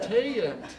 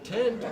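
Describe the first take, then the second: First: The vowel is stretched into two sounds. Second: The vowel is short, a single sound.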